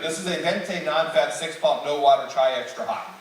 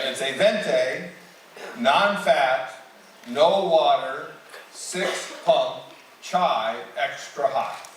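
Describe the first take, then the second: First: The order is said fast. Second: The order is said slowly.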